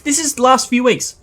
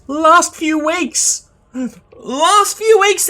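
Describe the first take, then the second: First: Said in the usual way. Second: "Last few weeks" slowed, much higher, louder; stress on LAST. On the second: Real, not acted. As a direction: hammer "Last few weeks" slow and high. Repeats phrase with rising emphasis.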